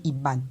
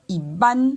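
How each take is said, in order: First: "Iban" kept low, without a rise. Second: "Iban" rising high and loud. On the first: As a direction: let "Iban" sit down in pitch. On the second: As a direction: lift the end of "Iban" sharply. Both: Shown as a demonstration. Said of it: "c'est au niveau des tons".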